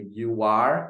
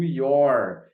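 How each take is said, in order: First: It is said as two separate words. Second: It is said as one contracted syllable. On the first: "na forma cheia eu digo you are" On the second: "eu digo your na forma contraída"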